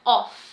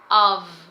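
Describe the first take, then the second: First: The word ends with an f sound. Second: The word ends with a v sound. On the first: The speaker calls it wrong. "não é off" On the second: The speaker calls it right. "e sim of ... O F tem um som de V"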